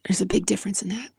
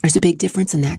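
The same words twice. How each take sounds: First: Fast, whispered repeat. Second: Said in the usual way. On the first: Real, not acted. Vlogger whispering the point again to her viewers.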